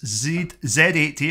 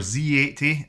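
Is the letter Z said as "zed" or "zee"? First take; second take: zed; zee. First: The letter Z is said as "zed". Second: The letter Z is said as "zee".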